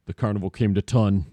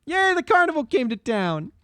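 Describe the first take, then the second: First: Low-pitched bad German accent; a crappy German accent, pitched down. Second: High-pitched bad German accent; a crappy German accent, pitched up. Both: Shown as a demonstration. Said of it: "my crappy German accent in two pitches".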